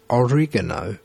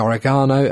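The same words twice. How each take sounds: First: The word is said the Italian way. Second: The word is said the British way. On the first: "Italians, who you've got to go with, really, say more like oregano" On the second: "British people say oregano"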